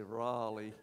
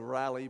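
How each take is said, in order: First: The name is drawn out slowly in an American drawl. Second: The name is said quickly in the local accent. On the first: This is how people over there say it. "over there they have to say Raleigh because they talk a bit slow" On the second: This is how listeners here say it. "you would say Raleigh"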